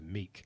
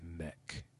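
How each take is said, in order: First: The name is said with a long 'ee' vowel. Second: The name is said with a short 'e' vowel. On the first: The speaker calls it wrong. "I read it, and I'm like, no, that dude's name is Meek" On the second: The speaker calls it right. "it's actually Mech"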